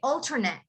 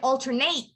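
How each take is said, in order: First: Stress is at the start; the ending is reduced. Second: The ending is stressed and sounds like 'eight'.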